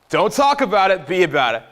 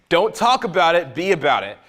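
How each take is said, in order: Both takes have the same delivery.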